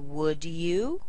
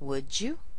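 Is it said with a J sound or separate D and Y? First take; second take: separate; J sound. First: The D and Y sounds are kept separate. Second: The D and Y merge into a J sound. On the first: "With a D and then a Y" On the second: "they might combine them together"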